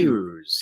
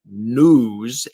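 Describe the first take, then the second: First: The vowel has a y glide, like nyooz. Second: The vowel is a plain oo, like nooz. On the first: The speaker calls it right. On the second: The speaker calls it wrong. "you would not say news, N O O Z E"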